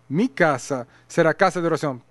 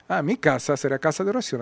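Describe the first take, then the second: First: It is said loudly, in a commanding voice. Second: It is said softly, in a gentle voice.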